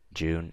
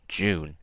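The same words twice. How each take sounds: First: The word is said plainly, without extra emphasis. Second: The word is said with extra emphasis.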